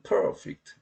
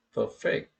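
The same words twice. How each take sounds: First: "perfect" said PER-fect, first syllable stressed. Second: "perfect" said per-FECT, second syllable stressed. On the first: Lecturer showing the adjective form, first syllable stressed. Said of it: "이름절에 강세가 있네요". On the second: Lecturer showing the verb form, second syllable stressed. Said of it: "이음절에". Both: Shown as a demonstration.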